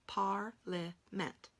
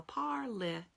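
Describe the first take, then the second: First: Parliament spoken very slowly, each part clear; slow sounding out. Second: Parliament with the A said out; think to spell parliament. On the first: Teacher slowly saying parliament for spelling. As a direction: stretch out parliament. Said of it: "How about parliament?". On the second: Teacher think-spelling parliament for the students. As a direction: sound every letter in parliament. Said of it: "So we think to spell parliament". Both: Shown as a demonstration.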